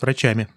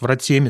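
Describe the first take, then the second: First: A ch sound with an open a vowel. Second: A ts sound with a narrow i-like vowel.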